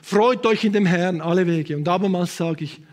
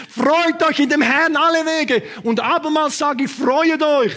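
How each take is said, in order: First: Said in the usual way. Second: Proclaimed scripture. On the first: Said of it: "oder hast du es schon gelesen?". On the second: Shown as a demonstration. Preacher rereads the verse to the church, proclaiming. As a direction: proclaim "Freut euch in dem Herrn" slowly from the pulpit. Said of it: "prophetisch, das sind nicht alles prophetisch".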